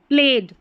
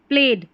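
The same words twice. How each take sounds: Both takes have the same delivery.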